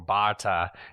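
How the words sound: The name is said in an Australian accent.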